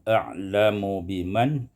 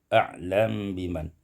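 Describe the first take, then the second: First: The vowel after the m is pronounced. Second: The m has no vowel and is hidden.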